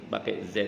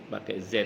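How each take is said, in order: Both takes have the same delivery.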